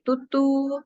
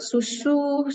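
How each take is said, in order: First: The consonants are both t sounds. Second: The consonants are both s sounds. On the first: The speaker calls it wrong. "susu sebagai tutu" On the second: The speaker calls it right. "susu sebagai tutu"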